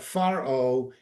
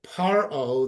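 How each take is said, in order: First: The word begins with an f sound. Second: The word begins with a p sound. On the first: A vowel comes before the word. "The weak" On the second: No vowel comes before the word. "the pay with the strong with the dot"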